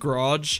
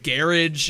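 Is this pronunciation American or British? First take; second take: American; British. First: It is said with an American pronunciation. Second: It is said with a British pronunciation. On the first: "instead of garage" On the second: "and garage"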